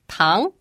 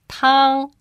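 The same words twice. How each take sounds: First: It has the second tone, rising in pitch. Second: It has the first tone, high and level. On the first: It means sugar. "The second tone, pronounced tang, it means sugar" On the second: It means soup. "The first tone, pronounced tang, means soup"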